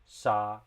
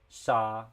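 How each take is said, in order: Both takes have the same delivery.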